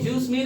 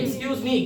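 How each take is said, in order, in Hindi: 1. शुरुआती 'ex' छोड़ दिया जाता है, और यह 'juice' जैसा सुनाई देता है। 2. पूरा शब्द एक साफ़ 'ex' ध्वनि से शुरू होता है। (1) "जूस मी नहीं" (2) "आज के बाद बोलेंगे एक्सक्यूज मी"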